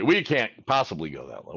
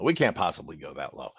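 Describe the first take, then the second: First: Lightly voiced collector refusing the offer; mock collector refusal. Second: Much lower and softer "We can't possibly go that low"; lower, softer repeat. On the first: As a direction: imitate a collector saying no out of the gate. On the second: Retold or imitated. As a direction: echo the refusal lower and quieter, as a mock aside. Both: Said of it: "you're gonna be".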